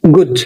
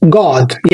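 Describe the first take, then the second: First: "good" given as the wrong way to say "God"; the wrong "good" vowel. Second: "God" with a long open ah; "God" with an American open ah. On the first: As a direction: show the mistake: "good" with an oo. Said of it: "مش بنقول good". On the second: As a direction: say "God" as "gahd". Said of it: "فبنقول God". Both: Shown as a demonstration.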